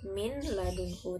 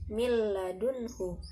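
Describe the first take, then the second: First: The n is pronounced separately before the l. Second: The n merges into the l without nasal sound. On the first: "seharusnya kan min ladunhu" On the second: "langsung dibaca milladunhu tanpa ada dengungan"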